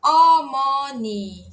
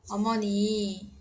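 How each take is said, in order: First: "Omoni" very slow and loud, each vowel held; emphatic syllabic demonstration. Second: "Omoni" drawn out at an ordinary volume, joined up; slow repeat demonstration. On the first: Teacher models the word for mother, loud slow demonstration. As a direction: belt out "Omoni" in stretched syllables. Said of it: "a gente vai enfatizar também". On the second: Teacher repeats the word for mother, unforced slow demonstration. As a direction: say "Omoni" slowly and evenly, gently falling. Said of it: "Mãe, vai ficar". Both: Shown as a demonstration.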